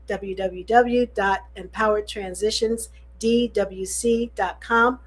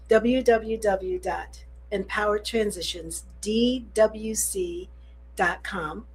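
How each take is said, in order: First: The address is read quickly. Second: The address is read slowly. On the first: The speaker calls it wrong. "You did say that kind of fast" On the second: The speaker calls it right. "slow it down"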